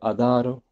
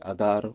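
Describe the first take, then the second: First: The word ends with an 'o' vowel. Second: The word ends with no final vowel. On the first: "Par exemple sur" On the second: "la voyelle finale disparaissait complètement"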